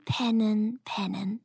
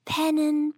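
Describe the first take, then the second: First: Fading into sleep. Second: High first pennen, sleepy badger. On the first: Acted. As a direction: let pennen drift off into sleep. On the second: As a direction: start the pennen brightly. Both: Dachs wiederholt pennen.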